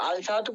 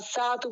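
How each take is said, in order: First: The l of the article is pronounced. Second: The l is silent and the s is doubled. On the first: The speaker calls it wrong. "আল সাহাতু বললে তুমি" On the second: The speaker calls it right. "আসসাহাতু বলতে হবে"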